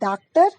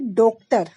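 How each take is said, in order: First: The first vowel is an open 'aa' sound. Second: The first vowel is a rounded 'o' sound. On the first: "अगर मैं हिंदी के हिसाब से इसको बोलूंगी" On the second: "अगर मैं हिंदी के हिसाब से इसको बोलूंगी"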